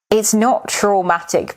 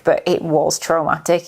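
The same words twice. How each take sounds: First: Said in the usual way. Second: Was leaned on, as a correction; stress on was. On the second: Shown as a demonstration. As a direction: press the word was to insist it was.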